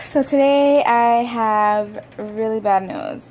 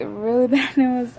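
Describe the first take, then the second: First: Said in the usual way. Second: A laugh breaking into the bad news. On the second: Real, not acted.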